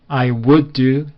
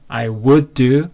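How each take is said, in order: Both takes have the same delivery.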